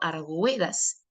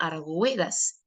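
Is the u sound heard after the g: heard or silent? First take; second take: heard; heard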